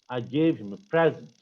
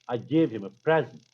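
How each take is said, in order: Both takes have the same delivery.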